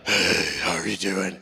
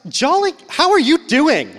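First: It is said in a plain, ordinary tone. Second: It is said in an overly cheerful tone.

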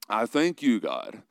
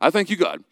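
First: It is said in a put-on pretentious voice. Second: It is said in a plain reading voice. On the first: "I'm bringing out my pretentious voice here" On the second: "I won't read the whole thing like that"

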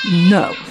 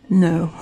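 First: It is said with more force and emphasis. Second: It is said plainly, without extra force.

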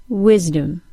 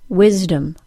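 Both takes have the same delivery.

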